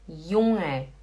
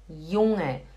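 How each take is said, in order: Both takes have the same delivery.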